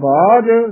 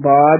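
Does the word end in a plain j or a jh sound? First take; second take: jh; j. First: The word ends with a jh sound. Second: The word ends with a plain j sound. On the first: The speaker calls it right. "ਬਾਜ ਝੱਜੇ ਨਾਲ ਉਚਾਰਨ ਕਰਨਾ" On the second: The speaker calls it wrong. "ਕਈ ਬਾਜ ਹੀ ਕਹਿ ਦਿੰਦੇ ਹਨ"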